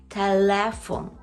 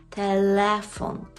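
Both takes have the same delivery.

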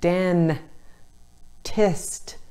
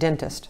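First: The first vowel is carefully exaggerated. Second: The first vowel is relaxed and natural. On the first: It is said so the vowel can be heard in dictation. "you might have to say dentist" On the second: It is how the word is normally said. "even though we pronounce it dentist"

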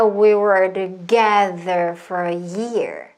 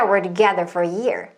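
First: The sentence is spoken slowly. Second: The sentence is spoken fast. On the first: "천천히 해보면요" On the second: "좀 빨리 하면"

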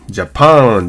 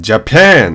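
First: The second vowel is a plain open 'a'. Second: The second vowel is between 'a' and 'e'. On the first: The speaker calls it wrong. "ジャパンじゃなくて" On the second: The speaker calls it right. "このアメリカンA なんで、ジャパンなんですよね"

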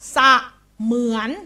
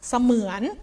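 First: The stress is on the first syllable. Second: The stress is on the second syllable. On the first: The speaker calls it wrong. "ครูจะไม่เน้นว่าสะเหมือนคุณครูจะไม่เน้นแบบนี้นะคะ" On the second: The speaker calls it right. "คุณครูจะไปเน้นคำหลังคำว่าเหมือน"

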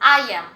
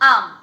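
First: Both words are said fully and separately. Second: The words merge into one short syllable.

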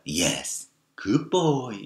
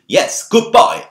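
First: It is said in a soft, warm, encouraging tone. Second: It is said in a sharp, forbidding tone. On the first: The tone matches the praising words. "절반은 말 그대로 이렇게 얘기한 거야" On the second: The tone contradicts the praising words. "또 절반은 어떻게 얘기했어?"

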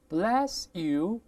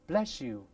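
First: The s stays a plain s sound. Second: The s changes into an sh sound.

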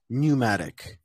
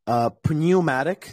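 First: The first vowel is a plain oo sound. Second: The first vowel is a yoo sound. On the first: The speaker calls it right. "Pronounced as ooh, just ooh" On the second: The speaker calls it wrong. "this is not pneumatic"

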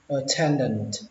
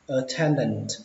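The two takes are said the same way.

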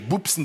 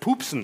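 First: The word begins with a soft, unaspirated B sound. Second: The word begins with a hard, aspirated P sound. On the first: "das ist fränkisch Bupsen" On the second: "das heißt Pupsen"

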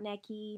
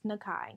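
First: The name ends with an 'ee' sound. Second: The name ends with an 'eye' sound. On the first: The speaker calls it wrong. "not Neki" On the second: The speaker calls it right. "It's Nakai"

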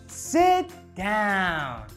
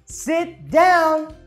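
First: It is said very slowly. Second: It is said somewhat faster.

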